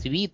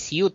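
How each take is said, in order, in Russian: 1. Слово звучит как 'sveet', оканчивается на -veet. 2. Слово звучит как 'syoot', оканчивается на -yoot. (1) "а свит" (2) "не сьют"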